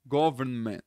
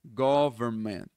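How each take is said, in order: First: "government" with the n clearly sounded; formal full pronunciation. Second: "government" without the n and the t, slow; the everyday way natives say "government"; casual reduced pronunciation. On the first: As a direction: pronounce every sound in "government" carefully. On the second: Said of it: "geralmente você vai ouvir". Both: Shown as a demonstration.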